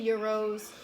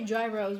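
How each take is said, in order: First: It begins with a Y sound, the fancy way. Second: It begins with a J sound, New York style.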